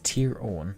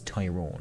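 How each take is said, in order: First: It is said as two words, Tier Owen. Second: It is said as one word, Tyrone. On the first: This is the original name, meaning land of Owen. "It says Tier Owen" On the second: This is how the English heard and reshaped the name. "they heard that as Tyrone"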